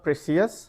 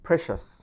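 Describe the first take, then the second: First: The ending is said as see-us. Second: The ending is said as shus. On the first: The speaker calls it wrong. "So not precious" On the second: The speaker calls it right. "it's precious"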